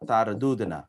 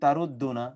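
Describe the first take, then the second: First: The two d sounds are separated by a vowel. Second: The two d sounds merge into one doubled d. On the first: The speaker calls it right. "পরের শেষেরটা হয়ে গেল তার দুদনা" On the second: The speaker calls it wrong. "এটা যদি আপনি আবার বলেন তারুদ্দুনা, তাইলে কনফিউশন তৈরি হয়ে গেল"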